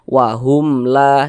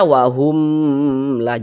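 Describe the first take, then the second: First: The 'hum' sound is kept short and crisp. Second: The 'hum' sound is drawn out long. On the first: The speaker calls it right. "pendek saja. ... seperti itu" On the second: The speaker calls it wrong. "Salah, jangan dipanjangkan begitu"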